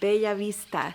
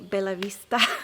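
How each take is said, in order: First: The double L is a different, non-L sound. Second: The double L sounds like a plain L. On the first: "in Spanish, it's actually a different sound" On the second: "English speakers would pronounce it just like an L"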